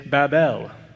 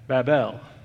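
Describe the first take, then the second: No difference in how they are said.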